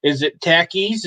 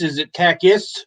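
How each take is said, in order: First: "tackies" with a short a like tacky; "tackies" said as in tacky, the a flat. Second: "takis" tried with a different vowel; "takis" as a second guess, rising. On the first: Sounding out the chip name as "tackies". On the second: Trying another way to say the chip name, "takis". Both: Shown as a demonstration. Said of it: "I don't know how to pronounce it right".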